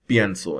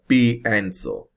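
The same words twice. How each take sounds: First: The 'ie' is said together as one syllable. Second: The 'i' and 'e' are split into two syllables. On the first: The speaker calls it right. "pronounce the two letters, the I E, as a single syllable" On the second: The speaker calls it wrong. "instead of"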